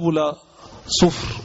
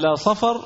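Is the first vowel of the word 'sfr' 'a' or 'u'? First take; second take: u; a. First: The word is said with a 'u' vowel, sufr. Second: The word is said with 'a' vowels, safar. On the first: The word means brass. The speaker calls it wrong. "بعض الناس نطقها باب لا صفر، وهذا خطأ" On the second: The word names the known month. The speaker calls it right. "صفر هو الشهر المعروف"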